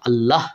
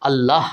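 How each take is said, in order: First: The word ends on a bare h sound. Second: The word ends on a bare h sound.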